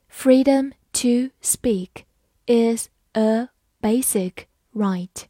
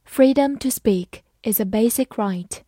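First: Slow, separated words with clear pauses; slow reading. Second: Said in the usual way. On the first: Shown as a demonstration. Teacher reading the example sentence for learners, slowly. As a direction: take it one word at a time, slowly. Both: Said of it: "好，慢慢来读".

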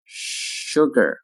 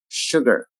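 First: "Sugar" with a long held sh; slow careful "Sugar"; drawn-out model. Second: Said in the usual way. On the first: Shown as a demonstration. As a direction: stretch "Sugar" out for learners. Teacher models word slowly, then normally.

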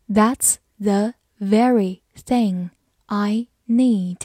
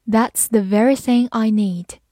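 First: Slow, careful sentence read. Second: Said in the usual way. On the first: Shown as a demonstration. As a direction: read it slowly for learners. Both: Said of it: "好，慢慢来读。".

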